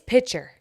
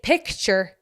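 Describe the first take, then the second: First: The k sound is dropped, like pitcher. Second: The k sound is clearly pronounced. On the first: The speaker calls it right. "It's pitcher" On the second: The speaker calls it wrong. "It ain't picture"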